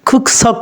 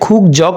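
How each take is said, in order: First: The second syllable starts with a tense consonant. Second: The second syllable starts with a plain consonant. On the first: The speaker calls it right. "জিউতটা সাংজিউতের চয়ের মতো উচ্চারণ হবে" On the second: The speaker calls it wrong. "খুক জক না হয়ে"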